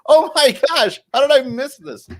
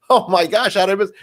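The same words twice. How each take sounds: First: Very high, louder mock astonishment; astonished squeal. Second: High-pitched retold astonishment; surprised reaction. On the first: Viewer sees Michael on screen, astonished squeal. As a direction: squeal in hammed-up shock. Retells bigger reaction seeing Michael. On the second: Viewer spots friend in commercial, surprised exclamation. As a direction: react in mild shock, pitched up.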